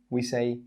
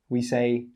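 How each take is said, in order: Both takes have the same delivery.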